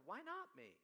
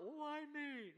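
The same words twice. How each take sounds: First: "not" stressed in a high-pitched question; raised pitch, weight on "not". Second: High, drawn-out mock wail; hammed-up high-pitched lament; woeful self-pity. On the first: Acted. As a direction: hit the word "not" as the correction. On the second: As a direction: plead it like a put-upon sufferer. Woeful question he rejects.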